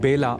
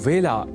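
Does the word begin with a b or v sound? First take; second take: b; v. First: The word begins with a b sound. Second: The word begins with a v sound. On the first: The speaker calls it wrong. "इसे बेला नहीं बोला जाना चाहिए" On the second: The speaker calls it right. "वेला इस शब्द के उच्चारण में भी विशेष ध्यान"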